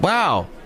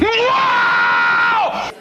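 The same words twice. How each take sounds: First: It is said quietly and flatly. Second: It is said loudly and obnoxiously.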